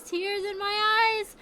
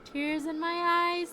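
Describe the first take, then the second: First: Slow, higher, louder lament; tearful cry. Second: Slow, quieter choked line; tearful, softer take. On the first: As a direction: wail the repeat. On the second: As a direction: say it through tears. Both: Real, not acted.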